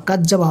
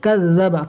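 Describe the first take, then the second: First: কাজ্জাবা with a hard j stop; mistaken j sound. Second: Tongue tip on upper teeth for the z in কাযাবা; correct zal sound. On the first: Teacher warning against the misreading, hard j. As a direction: swap the buzz for a j as in jam in কাজ্জাবা. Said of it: "হবে না". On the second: Teacher demonstrating articulation, buzzing zal. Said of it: "উচ্চারণ হয় জিভের আগা". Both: Shown as a demonstration.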